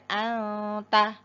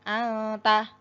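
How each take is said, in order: First: The nasal sound is cut short. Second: The same.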